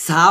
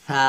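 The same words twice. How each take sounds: First: সা with a hissed plain s; short সা on a sharp s; wrong-sound demo. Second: সা with th as in "think", vowel held; correct tha demo. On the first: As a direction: show the mistaken short "sa" for সা. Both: Shown as a demonstration. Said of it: "সা হবে না".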